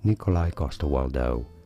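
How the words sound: The name is said with English pronunciation. "in English, this is generally said"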